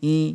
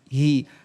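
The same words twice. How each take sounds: First: The h is faint and barely articulated. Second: The h is clearly voiced from the throat. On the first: The speaker calls it wrong. "Haknya ini enggak dijelaskan, cuma hanya seperti ini bacanya" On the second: The speaker calls it right. "makhrajnya sama seperti hamzah, paling jauh dia. Tenggorokan bagian bawah"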